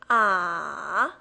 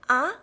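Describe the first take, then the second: First: The pitch dips down, then rises. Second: The pitch rises from low to high. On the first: "It goes down, then picks up" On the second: "the second tone, it rises"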